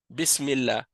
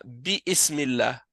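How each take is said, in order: First: "bismillah" with no vowel between bi and smillah; correct joined reading. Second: "bi ismillah" with a sounded i before smillah; wrong separated reading. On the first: Teacher showing the class the correct joined reading. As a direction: glide straight from bi into smillah in "bismillah". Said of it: "on dit pas bi ismillah". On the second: Teacher showing students the reading to avoid, with i sounded. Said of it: "on dit pas". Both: Shown as a demonstration.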